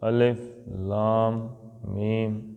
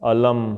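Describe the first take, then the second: First: Each letter name is said separately. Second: The letters are joined into one word. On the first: The speaker calls it right. "ऐसे हर्फ जो टुकड़े टुकड़े करके पढ़ने हैं" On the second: The speaker calls it wrong. "इनको आप मिला के नहीं पढ़ सकते, अलम या ऐसे नहीं पढ़ सकते"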